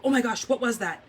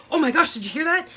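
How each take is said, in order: First: Said in the usual way. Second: High, loud startled gasp of a question; jolted awake by thunder, reenacting the alarm; startled exclamation. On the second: Wife shaking her husband awake after the thunder, startled and loud.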